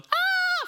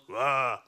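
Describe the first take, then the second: First: Very high, loud terrified scream; scared sailors screaming high; shrill scream. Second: Low, gruff mock boy's yell; the brave boys' shout; tough-guy yell; boyish yell. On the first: Acted. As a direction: shriek in total fright. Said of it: "Men da skrek vi sånn". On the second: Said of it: "gutter skrek egentlig sånn".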